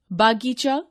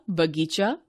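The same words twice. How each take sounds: First: बागीचा said with a long aa in the first syllable, baa-gee-chaa; wrong pronunciation. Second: Said in the usual way. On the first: Shown as a demonstration. Teacher reads the wrong form बागीचा aloud for the class. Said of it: "अशुद्ध शब्द". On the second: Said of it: "शुद्ध शब्द".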